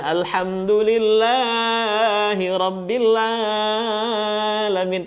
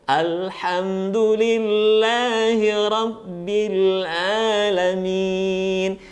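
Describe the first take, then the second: First: "Alhamdulillahi Rabbil Alamin" chanted with long vowels dragged far too long; wrong take, "Alhamdulillahi Rabbil Alamin" with exaggerated held vowels; overlong madd. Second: "Alhamdulillahi Rabbil Alamin" chanted slowly with measured long vowels; swung madd. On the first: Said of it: "tidak kepanjangan dalam membaca huruf madnya". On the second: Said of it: "cukup diayunkan saja supaya tidak kepanjangan". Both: Shown as a demonstration.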